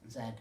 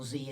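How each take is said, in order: First: The letter is said in a non-American way. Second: The letter is said the American way.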